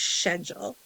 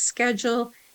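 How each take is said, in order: First: The word is said the British way. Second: The word is said the American way. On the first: "There they would pronounce it as schedule" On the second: "Here we pronounce it as schedule"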